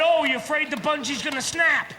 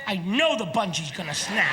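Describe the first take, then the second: First: Friends' light, doubting question; teasing question. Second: "know" stressed, lower deadpan certainty. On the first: Retold or imitated. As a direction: ask it as a mild taunt. Friends' teasing question, then his answer. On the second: Acted. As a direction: lean on "know", then drop low. His certain answer to the question.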